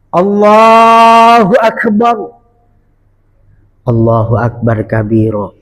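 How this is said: A short pause follows the first phrase. The speaker calls it right. "Harus ada saktah, ada jeda"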